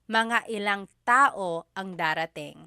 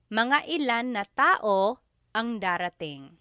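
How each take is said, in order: First: 'Na' is shortened to -ng joined onto 'ilan'. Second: 'Na' is said as a separate word after 'ilan'.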